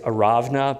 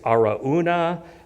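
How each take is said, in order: First: The middle sound is a v. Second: The middle sound is a vowel.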